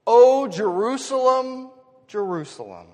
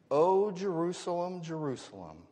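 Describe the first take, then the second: First: Loud, high drawn-out call, then dropping; longing cry. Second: Understated lament. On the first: Caring father calling to his children, in loud longing. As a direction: cry out the name like an aching parent. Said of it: "Do you hear the longing of a". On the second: Jesus lamenting over his city, in restrained longing. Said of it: "He whispers the words that we find". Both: Acted.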